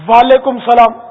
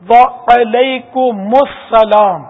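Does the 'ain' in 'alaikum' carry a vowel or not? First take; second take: no vowel; vowel. First: The ain sound is said without a following vowel. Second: The ain sound is followed by a short a. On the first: The speaker calls it wrong. "یہ بھی غلط" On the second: The speaker calls it right. "عین پر زبر آئے گا"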